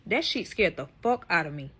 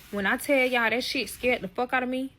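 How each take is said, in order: First: Said in the usual way. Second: The first take of "When I tell y'all that shit scared the fuck out of me" lifted higher, leaning on "tell"; emphatic. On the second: Real, not acted. Telling her followers, raised and emphatic. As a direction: hit "tell" hard, pitch raised. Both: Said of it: "repeated for emphasis".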